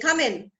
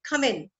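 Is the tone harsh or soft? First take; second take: harsh; soft. First: It is said in a harsh, curt tone. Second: It is said in a soft, welcoming tone.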